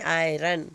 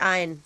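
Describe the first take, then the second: First: The word is said with an R sound. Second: The word is said without an R sound. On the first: The speaker calls it right. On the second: The speaker calls it wrong. "Not आयन"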